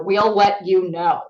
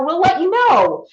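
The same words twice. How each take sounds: First: Slow and heavy, each word weighted; slow, ominous. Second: Light, upbeat dismissal; breezy brush-off. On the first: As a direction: let it land like a verdict. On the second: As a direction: toss it off casually. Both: Retold or imitated. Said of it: "the knife in the heart to any actor".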